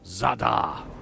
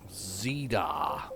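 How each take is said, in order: First: The name is said as Zada. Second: The name is said as Zida. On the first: "Sounds more better, better tone to it than Zida" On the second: "Maybe it's Zida"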